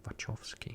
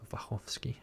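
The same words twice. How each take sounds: First: The name is pronounced with English sounds. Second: The name is pronounced with Polish sounds. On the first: The speaker calls it wrong. "not Wachowski or Wachowski or whatever they actually try to pronounce it in, like in English" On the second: The speaker calls it right. "I want to pronounce the last name as it is actually Polish"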